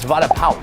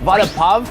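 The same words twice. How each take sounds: First: The second word sounds like 'pow'. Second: The second word does not sound like 'pow'. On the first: The speaker calls it right. "Like, pow" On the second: The speaker calls it wrong. "that's not how you say it"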